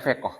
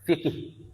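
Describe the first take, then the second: First: It starts with f and ends in an o vowel. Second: It starts with f and has two i vowels. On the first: This is the Malaysian Malay form. "logat Melayu kalau di Malaysia" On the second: This is the common dialect form. "Dialek yang umum adalah kita bilang fikih"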